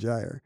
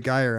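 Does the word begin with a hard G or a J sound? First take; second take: J; hard G. First: The word begins with a J sound. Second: The word begins with a hard G sound. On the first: This is the speaker's own way of saying it. "I would say gyre" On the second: This is the other person's way of saying it. "you would say gyre"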